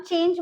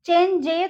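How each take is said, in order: First: Said in the usual way. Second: चेंज जे with the final e sounded, "chen-jay"; mispronounced change. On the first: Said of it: "बोलते हैं इसको". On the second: Shown as a demonstration. Teacher showing what not to say, चेंज जे as "chen-jay". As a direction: give चेंज जे an extra end syllable. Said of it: "तो नहीं बोलेंगे हम".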